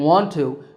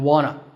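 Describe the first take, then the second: First: Both words are said fully and separately. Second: The words blend into one short reduced form.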